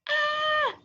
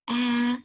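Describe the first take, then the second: First: The shout is at a high pitch. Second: The shout is at a middle pitch. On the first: A small baby is shouting. "the baby shouted like ah. ... Because it has high pitch" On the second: A mid-sized adult is shouting. "mother shouted like ah"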